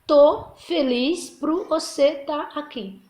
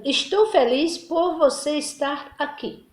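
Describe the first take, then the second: First: Relaxed everyday version, said slowly; informal casual phrasing. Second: Careful, slow formal reading; formal standard phrasing. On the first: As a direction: drop into casual spoken Portuguese. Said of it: "Aí na linguagem informal". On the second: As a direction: say it in careful standard Portuguese, slowly. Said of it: "Linguagem padrão". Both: Shown as a demonstration.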